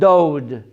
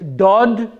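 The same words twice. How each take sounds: First: The vowel glides from O toward W. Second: The vowel is a pure, steady O sound. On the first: "instead of dod" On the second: "since there's no O W sound in the Hebrew language, the word here is dod"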